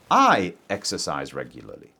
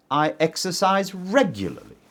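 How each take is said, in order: First: "I" stressed, the rest of "I exercise regularly" lower and lighter. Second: "regularly" pushed up and lengthened at the end; stress on regularly. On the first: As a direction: hit the word "I" to contrast with other people. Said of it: "Not my brother, not Tim". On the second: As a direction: stress "regularly" to mean often, not a little. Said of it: "So I'm emphasizing regularly". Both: Shown as a demonstration.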